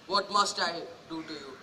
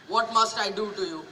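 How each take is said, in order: First: Quiet, low and defeated; broken. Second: Said in the usual way. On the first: Acted. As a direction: let the question collapse. Repeats the question brokenly.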